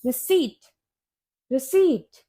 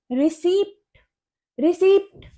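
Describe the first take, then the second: First: रिसीट as ri-SEET, silent P; correct pronunciation. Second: रिसीप्ट with the P sounded; common mispronunciation. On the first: Teacher corrects learners, correct pronunciation. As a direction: say रिसीट with long EE straight into T. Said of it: "इसे हम बोलते हैं". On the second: Teacher shows learners the mistake, mispronounced word. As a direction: say रिसीप्ट as re-SEEPT, rising. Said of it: "ये रिसिप्ट नहीं होता". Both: Shown as a demonstration.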